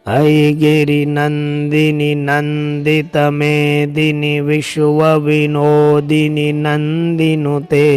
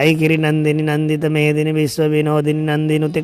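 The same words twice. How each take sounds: First: It is recited slowly and calmly. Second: It is recited quickly and rushed.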